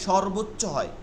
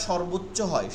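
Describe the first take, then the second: Both takes have the same delivery.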